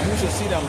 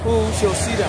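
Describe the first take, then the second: First: Said in the usual way. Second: Louder and higher scoffing question; mocking the wicked. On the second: Preacher mimics the wicked boasting, scoffing. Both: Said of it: "They say".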